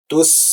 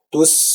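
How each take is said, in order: The two takes are said the same way.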